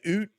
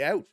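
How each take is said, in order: First: The vowel is a long 'oo' sound. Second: The vowel is a gliding 'ow' sound. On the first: This is an exaggerated stereotype of Canadian speech. The speaker calls it wrong. "We don't say oot" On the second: This is how most Canadians really talk. The speaker calls it right. "most Canadians just say out"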